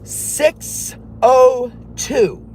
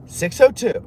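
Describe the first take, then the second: First: Drawn out slow and high; slow, high, deliberate number read. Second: Said in the usual way. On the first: Shown as a demonstration. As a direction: stretch each number out slowly.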